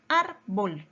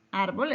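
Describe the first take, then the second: First: "Árbol" split in two, ÁR stressed; teacherly syllable break in "Árbol", weight on ÁR. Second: Said in the usual way. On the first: Shown as a demonstration. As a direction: say "Árbol" as ÁR... bol, first syllable strong. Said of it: "Sílaba tónica en la penúltima sílaba". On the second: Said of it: "Sílaba tónica en la penúltima".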